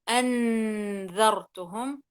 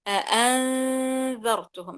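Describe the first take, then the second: First: The n is pronounced clearly and fully. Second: The n is hidden, leaving only a nasal hum. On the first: The speaker calls it wrong. "فلا أقول أنذرتهم خطأ" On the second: The speaker calls it right. "هذا الصوت هو صوت الإخفاء تماما"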